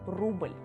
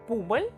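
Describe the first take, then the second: First: The word begins with a rolled 'r' sound. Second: The word begins with a 'p' sound. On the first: The speaker calls it right. "patriotic examples with this particular sound" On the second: The speaker calls it wrong. "pronounce the same words with P sound"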